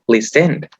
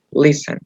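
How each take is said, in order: First: "listened" mis-stressed as lis-END; wrong last-syllable stress. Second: "listen" as LIS-en, ending light; unstressed last syllable. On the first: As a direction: punch the second syllable of "listened". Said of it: "no decimos listened". ("listened" mal acentuado en la última sílaba) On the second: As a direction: hit only the first syllable of "listen". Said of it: "que no va a ser acentuada". ("listen" con la última sílaba átona) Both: Shown as a demonstration.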